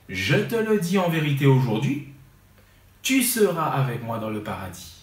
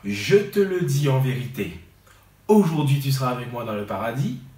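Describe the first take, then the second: First: The pause comes after the word aujourd'hui. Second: The pause comes before the word aujourd'hui. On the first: The promise is made today, fulfilled later. "je dis" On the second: Being in paradise happens today. "Si au lieu de dire"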